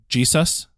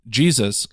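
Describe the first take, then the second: First: The word is said with emphasis on an odd syllable. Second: The word is said with normal, ordinary stress.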